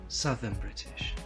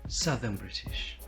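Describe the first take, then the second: The two takes are said the same way.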